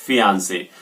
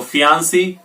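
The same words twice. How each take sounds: First: फियांसे ending in "say"; फियांसे, last syllable rhyming with "day"; final AY sound. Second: फियांसी ending in a clear "see"; फियांसी, last syllable rhyming with "sea"; final long EE sound. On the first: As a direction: say फियांसे with an AY at the end. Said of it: "मेल के लिए फियांसे". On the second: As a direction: say फियांसी with an EE at the end. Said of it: "female के लिए फियांसी". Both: Shown as a demonstration.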